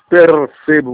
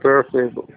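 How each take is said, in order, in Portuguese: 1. O som do R é pronunciado claramente. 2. O som do R quase não se pronuncia. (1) "você não diz percebo" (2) "você fala percebo. Quase não pronuncia o R"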